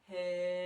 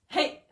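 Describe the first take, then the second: First: It is drawn out long and steady. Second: It is shouted short and loud.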